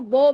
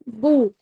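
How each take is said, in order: First: The vowel drifts toward an 'oh' sound. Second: The vowel is a full rounded 'oo' sound. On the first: The speaker calls it wrong. "अगर आप बाहर की तरफ नहीं लेके आएंगे ना अपने होंठों को, ... वो बो बन जाएगा, मजहूल हो जाएगा" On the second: The speaker calls it right. "पूरे होंठ आपके गोल होंगे, ... थोड़े से बाहर की तरफ भी आएंगे"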